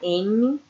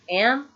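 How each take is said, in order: First: It ends with an added e vowel. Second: It ends on m with no vowel. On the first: The speaker calls it wrong. "Não vou falar M" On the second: The speaker calls it right. "é sem o som de E"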